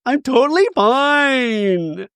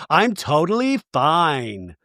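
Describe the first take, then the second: First: High, drawn-out wail on the last word; mock wailing denial. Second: Slow, stretched mock insistence; insisting she's fine. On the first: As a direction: imitate someone falling apart while insisting. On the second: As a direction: act out upset denial, dragged out. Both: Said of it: "You don't seem fine".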